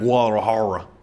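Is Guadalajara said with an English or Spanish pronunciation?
English. It is said with an English pronunciation. The speaker calls it wrong. "not Guadalajara or whatever the hell, whatever I'm trying to say"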